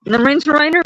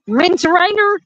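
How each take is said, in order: First: "refrigerator" again as "rinterainer", a bit higher; retry "refrigerator", still garbled; repeated attempt at refrigerator. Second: "Refrigerator" said "rinjerainer", high and questioning; refrigerator the Northern way. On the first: Trying again to say the word like them. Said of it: "I can't say it like y'all say it". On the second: Joking about how her family says refrigerator. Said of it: "I can't even say it". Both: Shown as a demonstration.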